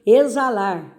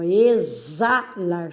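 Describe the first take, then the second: First: Said in the usual way. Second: "exalar" slowly, stretched at the za; separando sílabas. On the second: Shown as a demonstration. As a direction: draw out "exalar" syllable by syllable. ("exalar" devagar, destacando as sílabas) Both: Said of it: "aí também".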